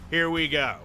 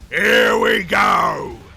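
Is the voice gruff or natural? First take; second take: natural; gruff. First: It is said in a plain natural voice. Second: It is said in a deep, guttural, gruff voice.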